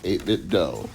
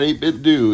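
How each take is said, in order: First: The last syllable has an 'oh' vowel, like 'doe'. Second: The last syllable has an 'oo' vowel, like 'doo'. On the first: The speaker calls it right. "It's eight-bit dough like Nintendo" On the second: The speaker calls it wrong. "it's not eight-bit do"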